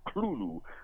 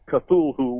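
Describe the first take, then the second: First: The name begins with a guttural L-like sound. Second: The name begins with a plain, non-guttural sound. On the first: The speaker calls it right. "it's a two-syllable word. The TH at the beginning there is kind of like a guttural L" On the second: The speaker calls it wrong. "a lot of people pronounce it as Cthulhu, which is absolutely wrong"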